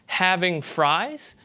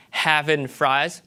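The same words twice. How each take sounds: First: "having fries", slow, with -ing and full I; mainstream US accent. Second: "having fries", slow, as havin' frahz; Southern accent. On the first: Lecturer contrasts accents, mainstream US "having fries". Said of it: "you hear that as a mainstream U S accent". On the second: Lecturer contrasts accents, Southern "having fries". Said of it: "you hear that as a Southern accent". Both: Shown as a demonstration.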